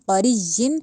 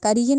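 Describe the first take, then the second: First: The middle consonant is doubled and held. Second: The middle consonant is single, not held. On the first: The speaker calls it right. "यहाँ पे शद को पढ़ेंगे" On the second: The speaker calls it wrong. "करीजिन नहीं"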